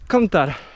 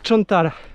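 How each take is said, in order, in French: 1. Le mot commence par un son k. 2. Le mot commence par un son ch. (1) "et au sud" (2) "au nord, ils vont dire"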